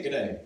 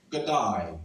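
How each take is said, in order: First: Said in the usual way. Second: "g'day" drawn out slowly, as if thinking first; a careful, hesitant "g'day"; dad's hesitant g'day. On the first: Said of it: "he wouldn't say". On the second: Retold or imitated. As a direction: stretch "g'day" like he has to think before saying it. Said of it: "as if he had to think first before saying that".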